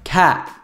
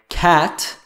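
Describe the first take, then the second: First: The final T is cut off in the throat. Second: The final T is fully released. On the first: "that final T sound is cut off by the back of the throat" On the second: "instead of"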